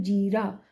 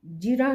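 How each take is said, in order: First: जीरा with a long ई in जी; correct long vowel. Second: जिरा with a short इ in जि; wrong short vowel. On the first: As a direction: stretch the first vowel of जीरा. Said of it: "बड़ी ई वाले". (जीरा में 'जी' लंबा बोलें) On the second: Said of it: "जिरा नहीं". (जिरा में 'जि' छोटा बोलें) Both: Shown as a demonstration.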